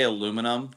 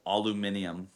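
First: "aluminum" said as four syllables, a-LU-mi-num; American pronunciation. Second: "aluminium" said as five syllables, al-u-MIN-i-um; a mock British "aluminium" said quietly; British pronunciation. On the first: Shown as a demonstration. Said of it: "you know they say aluminum". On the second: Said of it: "They say aluminium".

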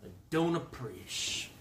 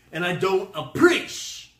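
First: Softer, deflated repeat of a grievance; quiet mock displeasure; subdued complaint. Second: Loud, raised comic protest; hammed-up offended complaint; mock indignation. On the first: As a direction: let it drop to a soft grumble. Same complaint, toned down. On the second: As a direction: protest it loudly, higher on the end. Mock complaint, first take.

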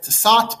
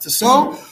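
First: "Tissot" read by its spelling, final t sounded; as spelled. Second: "Tissot" as tee-SOH, silent final t; French pronunciation. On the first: Teacher showing listeners the author's name as spelled, final t sounded. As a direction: say "Tissot" with a hard t at the end. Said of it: "spelled Tissot, pronounced Tissot". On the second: Teacher showing how the author's name is pronounced, silent final t. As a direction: say "Tissot" the French way, ending on an open oh. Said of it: "pronounced Tissot". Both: Shown as a demonstration.

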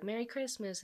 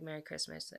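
First: Higher, bright Merry Christmas from her; her cheerful greeting. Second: His sleepy reply. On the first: Vanessa greeting Aiden on Christmas morning, higher and cheerful. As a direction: chirp it like she's glad to see him. She greets him, he replies. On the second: Aiden answering Vanessa on Christmas morning, softer and sleepy. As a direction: mumble it back half awake. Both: Acted.

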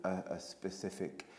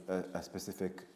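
Both takes have the same delivery.

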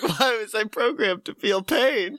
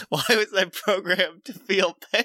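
First: A higher, over-the-top robot cry of pain; milk the robot's line as the punchline; a higher mock robot wail, mid-laugh; hammed-up robot lament. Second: A lightly voiced robot, puzzled and hurt; a mild mock lament from the fallen robot; pained robot. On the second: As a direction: ask it like a broken machine in mock anguish. Sparking robot cries out.

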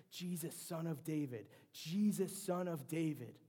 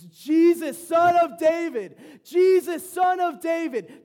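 First: Raised, pleading call to Jesus; a moderate retold plea, higher and louder; crying out. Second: Full-voice yell, much higher and louder, slowed; a drawn-out desperate bellow of a blind beggar; desperate shout. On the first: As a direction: call out to him a bit louder, begging. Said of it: "he's crying out to Jesus". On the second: Retold or imitated. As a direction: scream it across the crowd to get his attention. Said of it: "He gets even louder".

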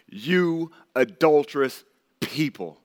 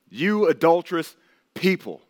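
First: Drawn out, stern and slow; slow, heavy rebuke. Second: Sharp rebuke. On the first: Preacher reading James's rebuke aloud, slow and stern. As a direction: let each word fall slowly like a charge. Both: Shown as a demonstration. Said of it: "just listen to the tone with this".

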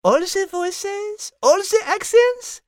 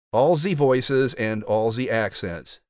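First: Put-on high, rising French-accented questions. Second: Slow mock-French imitation, evenly dropped; mocking French accent. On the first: French character quizzing the narrator on his voices, French accent. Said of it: "just your strange French accent". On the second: Narrator mimicking Liz's question, mocking French accent. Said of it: "Did he just mock me?".

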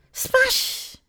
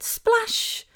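First: Very high, whispery little splash; imitating cute toddler. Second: High-pitched motherese splash; encouraging echo. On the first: Mum imitating her son in the bath, cute toddler voice. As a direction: copy a tiny child's splashy exclamation. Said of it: "got a very cute voice". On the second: Retold or imitated. Mum echoing her son's new word, encouraging. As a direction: cheer the word back to a toddler. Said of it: "So I said".

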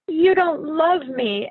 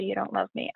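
First: Put-on loud, slow, sulky cry of a child; sulky child outburst. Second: Quiet sulky mimic. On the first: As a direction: stomp it out like a hurt kid. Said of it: "stomps off". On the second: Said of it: "stomps off with all the".

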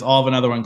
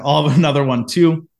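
First: Said in the usual way. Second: Nervous bravado. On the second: Retold or imitated. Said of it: "I'm freaking out".

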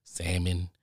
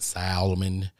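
First: "salmon" as SAM-un, no L at all; salmon, silent L. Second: "salmon" with the L sounded, SAL-uh-mun. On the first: Grill guy offering the other way to say salmon, L silent. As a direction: say "salmon" dropping the L. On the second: Grill guy offering both ways to say salmon, L pronounced. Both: Shown as a demonstration. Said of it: "However y'all wanna say it".

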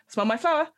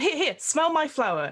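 First: Said in the usual way. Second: High eager clown offer; prop comic voice. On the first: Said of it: "he's like". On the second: Acted. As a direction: push the flower, eager. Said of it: "prop comic".

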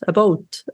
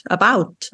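First: "about" said ab-OAT like a Canadian; Canadian accent. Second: "about" with the ow sound, ab-OWT; Canadian about. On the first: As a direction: round the vowel in "about" toward oh. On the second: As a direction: say "about" the standard way. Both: Shown as a demonstration. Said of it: "it's the word about".

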